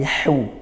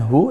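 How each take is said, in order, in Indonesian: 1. Huruf h kasar, keluar dari tenggorokan. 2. Huruf h adalah bunyi napas yang ringan. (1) "tapi hu. Husna dari tengah tenggorokan" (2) "bukan hu"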